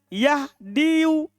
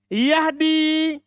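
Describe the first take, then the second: First: The word ends with an added audible 'u' vowel. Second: The word ends in 'i' with no final vowel. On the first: The speaker calls it wrong. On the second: The speaker calls it right.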